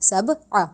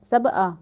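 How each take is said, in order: First: The second syllable starts with a throaty sound. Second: The second syllable starts with a plain vowel. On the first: The speaker calls it right. "इसको सब आ कहना है" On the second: The speaker calls it wrong. "अलिफ की अदायगी"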